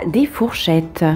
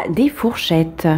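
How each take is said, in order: The two takes are said the same way.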